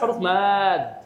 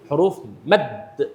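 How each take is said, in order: First: The vowel in the second word is long. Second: The vowel in the second word is short. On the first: The speaker calls it wrong. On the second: The speaker calls it right.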